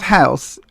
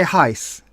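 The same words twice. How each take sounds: First: "house" with a full open "ow" vowel; ordinary "house". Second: "heis" with the vowel squeezed towards "ice"; old-money "heis". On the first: Showing the wrong way to royals' ears, "house" with a full "ow". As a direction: say "house" with the common "ow" sound. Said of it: "It's not house". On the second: Mock royal correcting commoners, "heis" with a tight old-money vowel. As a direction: say "heis" to rhyme with mice, royal-style. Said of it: "you've got to say heis". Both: Shown as a demonstration.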